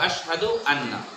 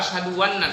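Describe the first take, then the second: First: Anna begins directly with a vowel. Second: A w sound is added before anna. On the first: The speaker calls it right. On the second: The speaker calls it wrong.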